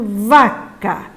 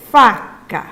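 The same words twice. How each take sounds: First: "vaca" with a held, voiced V at the start; over-articulate the V in "vaca", slowly; "vaca" said slowly and distinctly; clear V sound. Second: "faca" with a distinct, voiceless F at the start; over-articulate the F in "faca", slowly; "faca" said slowly and distinctly; clear F sound. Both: Shown as a demonstration. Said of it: "tem que falar com clareza".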